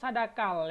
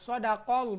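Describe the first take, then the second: First: The middle consonant is a plain K sound. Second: The middle consonant is a deep Q sound. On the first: The speaker calls it wrong. "Sadakal berarti huruf K" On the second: The speaker calls it right. "Dia menggunakan qaf"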